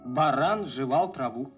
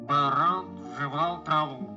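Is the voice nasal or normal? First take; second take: normal; nasal. First: It is said in a normal voice. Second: It is said with a pinched, nasal voice.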